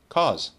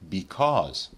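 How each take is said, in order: First: It is said in its most reduced form. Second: It is said in its full, careful form. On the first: "the least formal" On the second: "the most formal"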